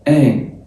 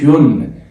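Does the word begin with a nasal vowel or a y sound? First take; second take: nasal vowel; y sound. First: It begins directly with a nasal vowel. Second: It begins with a y sound before the vowel. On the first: The speaker calls it right. "ان ان ان بس" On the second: The speaker calls it wrong. "ما اسمهاش يون، يون لا"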